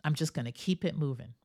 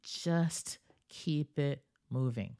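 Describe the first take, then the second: First: Quick, breezy "keep it moving"; brisk quote. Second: Slow, savoring "Just keep it moving"; slow emphasis. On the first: Retold or imitated. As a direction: toss it off quickly and move on. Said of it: "Like a good friend of mine says". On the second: Shown as a demonstration. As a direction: lean in and draw each word out. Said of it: "I love this".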